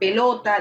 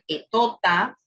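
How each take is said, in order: First: The word is pronounced with all its sounds. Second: The first sound is dropped, l becomes t. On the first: The speaker calls it right. "en vez de decir pelota" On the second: The speaker calls it wrong. "dice etota"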